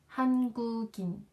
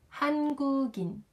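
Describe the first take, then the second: Both takes have the same delivery.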